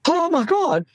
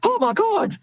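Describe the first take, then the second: First: High, alarmed "Oh my God," like a frightened patient; panicked cry. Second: "Oh my God." squealed very high in hammed-up alarm; mock panic. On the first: Retold or imitated. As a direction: imitate a panicking patient bursting in. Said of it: "somebody comes running into the casualty saying". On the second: Shown as a demonstration. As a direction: show the doctor losing it, overdone. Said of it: "you can't go".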